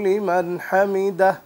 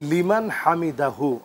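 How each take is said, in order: First: The word ends without the final 'hu' sound. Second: The word ends with an added 'hu' sound. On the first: The speaker calls it wrong. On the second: The speaker calls it right.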